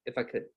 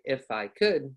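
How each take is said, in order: First: "If I could" run together, short and soft; linked words. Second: "If I could" with each word apart; wrong separated words. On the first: Teacher showing what to say, linked words. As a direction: blend "If I could" into one word. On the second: Teacher showing what not to say, separated words. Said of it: "I don't say". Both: Shown as a demonstration.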